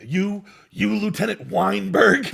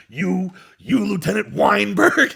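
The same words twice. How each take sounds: First: Louder, slow menacing Nicholson; slow, pointed Nicholson line; Nicholson impression. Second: Slow, louder and higher Nicholson; hammed-up Nicholson delivery; Nicholson impression. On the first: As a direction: drawl out the name like Jack Nicholson. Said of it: "he does the take". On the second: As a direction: lean on the name, slow and menacing. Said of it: "he does the take for the first time".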